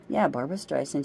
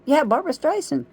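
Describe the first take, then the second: First: Said in the usual way. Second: A sudden burst of recognition; excited exclamation. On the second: Real, not acted. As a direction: shoot up high and loud on the name. Correcting herself with a sudden exclamation.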